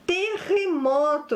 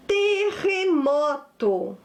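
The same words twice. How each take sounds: First: Said in the usual way. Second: "Terremoto" drawn out syllable by syllable; slow dictation. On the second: Shown as a demonstration. Teacher presents a new word to pupils, slow dictation. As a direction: stretch each syllable of "Terremoto".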